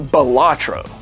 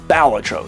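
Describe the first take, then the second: First: The stress is on a later syllable. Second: The stress is on the first syllable. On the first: The speaker calls it wrong. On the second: The speaker calls it right. "the accent goes on the first syllable"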